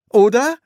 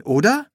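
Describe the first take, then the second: First: High, loud, rising question; insistent questioning. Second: Raised, rising tag question; seeking reassurance. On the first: Son pressing the silent priest, insistent question. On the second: Son asking the priest for reassurance, rising question. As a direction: lift it into a question. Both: Acted.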